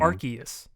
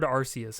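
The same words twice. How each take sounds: First: The C is said as a hard K sound. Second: The C is said as a soft S sound. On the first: This is how the official presentation said it. The speaker calls it right. "like with a hard C" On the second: This is how the speaker always said it. The speaker calls it wrong. "I've always heard Arceus"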